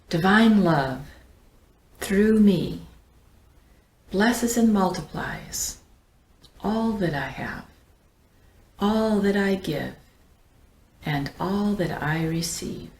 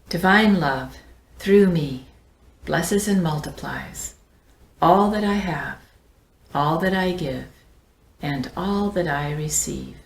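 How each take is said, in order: First: It is said slowly. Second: It is said at a normal pace.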